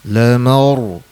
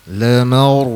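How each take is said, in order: No difference in how they are said.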